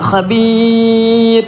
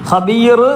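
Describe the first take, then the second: First: The final r is said light and thin. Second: The final r is said heavy and full. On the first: The speaker calls it right. "ഖബീർ റോയിന് തെർക്കീക്കാക്കിയാണ് ഓതേണ്ടത്" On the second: The speaker calls it wrong. "ഖബീർ എന്ന് പറയരുത്"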